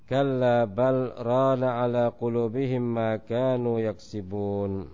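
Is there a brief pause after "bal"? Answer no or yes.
no. "Bal" runs straight into "rana" without pause. "boleh pula untuk kita sambung ayatnya"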